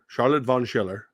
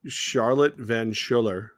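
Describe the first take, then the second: First: Charlotte Von Schiller with "Von" as in von, not van; "Von Schiller", the fix; corrected name. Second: Charlotte Van Schiller with "Van" as in van, said slowly; "Van Schiller" before the fix; wrong name first. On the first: Host corrects himself to Von Schiller. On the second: Host first gets the fan's name as Van Schiller. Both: Shown as a demonstration.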